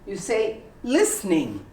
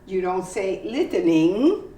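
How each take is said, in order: First: The middle vowel and T are dropped. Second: The middle vowel and T are sounded. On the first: The speaker calls it right. "You don't hear the T, and you don't hear the E" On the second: The speaker calls it wrong.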